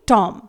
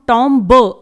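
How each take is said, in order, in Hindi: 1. m के बाद b की कोई आवाज़ सुनाई नहीं देती है। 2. m के बाद b की आवाज़ सुनाई देती है। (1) "इसे हम पढ़ेंगे टॉम" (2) "इसे हम टॉम ब नहीं पढ़ेंगे"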